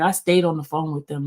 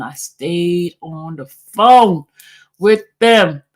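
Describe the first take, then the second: First: Said in the usual way. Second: "phone" drawn out, then "with them" punched louder; slow right down and hammer "I stayed on the phone with them"; emphatic repetition. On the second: Real, not acted. Repeats the point for emphasis.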